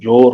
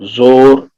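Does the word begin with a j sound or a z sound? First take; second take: j; z. First: The word begins with a j sound. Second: The word begins with a z sound. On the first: "नुक्ता हट जाएगा तो जोर हो जाएगा।" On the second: "ये सब नुक्ते वाले हैं।"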